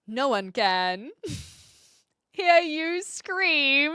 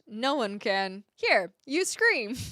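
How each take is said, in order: First: There is a full stop pause after "can". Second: There is no full stop pause after "can". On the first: "I was reading it with the period" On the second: "Let me try that delivery again"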